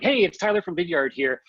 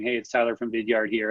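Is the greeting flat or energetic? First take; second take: energetic; flat. First: The greeting sounds lively and energetic. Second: The greeting sounds flat and unenthusiastic.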